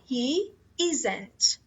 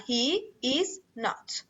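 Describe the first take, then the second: First: 'Not' is shortened and joined to the verb. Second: All three words are said in full. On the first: "اون نات رو به صورت مخفف بیاری و فعلت رو کامل" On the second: "میتونی هر دوشون رو کامل بیاری بدون مخفف"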